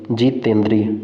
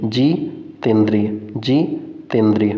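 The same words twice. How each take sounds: First: Said in the usual way. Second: "जितेंद्रिय" very slowly, pausing after जि; broken into parts. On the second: Shown as a demonstration. Teacher drills the answer for students, slowly split "जितेंद्रिय". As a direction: split "जितेंद्रिय" into a stretched जि, pause, तेंद्रिय.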